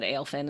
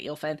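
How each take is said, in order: First: The name begins with an 'ay' vowel sound. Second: The name begins with an 'ee' vowel sound. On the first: The speaker calls it wrong. "said it wrong" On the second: The speaker calls it right. "instead of Eelfin"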